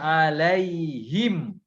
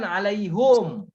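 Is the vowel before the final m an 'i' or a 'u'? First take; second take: i; u. First: The last syllable has an i vowel. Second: The last syllable has a u vowel. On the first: The speaker calls it right. "Karena jar dibaca alaihim" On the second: The speaker calls it wrong. "bukan alaihum"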